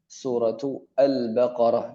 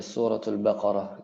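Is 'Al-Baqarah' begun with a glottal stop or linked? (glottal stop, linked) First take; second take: glottal stop; linked. First: A glottal stop is sounded before Al-Baqarah. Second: The words run together without a glottal stop. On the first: The speaker calls it wrong. "Jadi hamzahnya kita baca gitu" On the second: The speaker calls it right. "Tapi langsung aja suratul Baqarah gitu"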